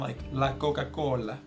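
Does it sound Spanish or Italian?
Italian. It is said with an exaggerated Italian accent.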